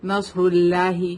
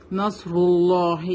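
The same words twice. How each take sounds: First: نصر اللہ with a thin, light l in اللہ; light lam mistake. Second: نصر اللہ with a full, dark double l in اللہ; heavy lam. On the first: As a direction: wrongly flatten the لام of اللہ to "lah". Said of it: "ہم ایسے نہیں پڑھیں گے". (نصر اللہ میں باریک لام) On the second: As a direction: slowly round out the لام of اللہ in نصر اللہ. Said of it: "اللہ کے لام کو ہیوی پڑھتے ہیں". (نصر اللہ میں موٹا لام) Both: Shown as a demonstration.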